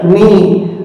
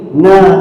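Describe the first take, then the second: First: The letter is read as a short ni. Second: The letter is read as a short na. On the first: "tidak boleh kita baca ni" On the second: "tidak boleh"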